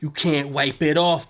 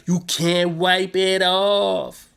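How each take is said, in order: First: Said in the usual way. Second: "You can't wipe it off" drawn out slowly, each word weighted; slow it right down and lean on "off"; slow emphatic repeat. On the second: Shown as a demonstration. Recapping the show, hammering home the blood metaphor slowly.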